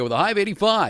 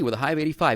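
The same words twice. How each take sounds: First: It is said in a put-on announcer voice. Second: It is said in a plain conversational voice. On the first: The speaker calls it wrong. "give me the weather like you're on the air" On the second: The speaker calls it right. "now you're just talking to me"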